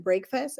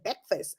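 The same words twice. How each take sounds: First: "Breakfast" as BRAKE-fast, both syllables full, rising; questioning BREAKFAST. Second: "Breakfast" as BEK-fuhst, r dropped, falling; BREAKFAST said differently. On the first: Teacher imitating a puzzled listener, questioning BRAKE-fast. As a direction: ask "Breakfast" quietly, saying brake-fast. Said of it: "Somebody said". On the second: Teacher retelling the pupils' exchange, reduced BEK-fust. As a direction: answer "Breakfast" quietly as bek-fust, short second vowel. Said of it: "some of the words that we pronounce will be different". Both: Retold or imitated.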